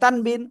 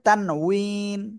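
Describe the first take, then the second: First: The middle consonant is a b sound. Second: The middle consonant is a w sound. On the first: The speaker calls it wrong. "বাংলায় উচ্চারণ অনেকে বলে তানবিন" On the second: The speaker calls it right. "আসল উচ্চারণ হবে তানউইন"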